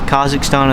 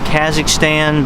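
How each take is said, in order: First: It is said with a non-American pronunciation. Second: It is said with an American pronunciation. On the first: "Kazakhstan is really how it probably should be pronounced" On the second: "The American pronunciation is Kazakhstan"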